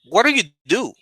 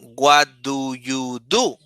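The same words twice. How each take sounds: First: The words run together without breaks. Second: Each word is said separately with small breaks. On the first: The speaker calls it right. "You say" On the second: The speaker calls it wrong. "You don't say"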